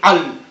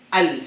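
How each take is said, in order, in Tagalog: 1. Nagsisimula ang patinig sa isang pigil sa lalamunan. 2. Malumanay na nabubuo ang patinig sa loob ng bibig. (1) "Hindi al" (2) "kundi al. Sa loob siya"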